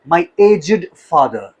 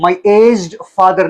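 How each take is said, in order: First: 'Aged' is said as two syllables. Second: 'Aged' is said as one syllable. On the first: The speaker calls it right. "दो syllables" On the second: The speaker calls it wrong. "यहां पर आप इसको माई एज्ड father नहीं कहेंगे"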